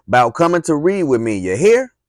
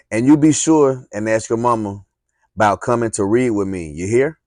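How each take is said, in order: First: High, loud holler ending in a rising you hear. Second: Hollered. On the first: Teacher hollers after the girl running off, loud and high. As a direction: call it out across the yard. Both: Acted. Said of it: "She hollered at me".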